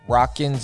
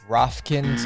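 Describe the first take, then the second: First: The name is said with no f sound. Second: The name is said with f before k. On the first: "Excuse me, not Rockin" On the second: "Excuse me, not Rofkin"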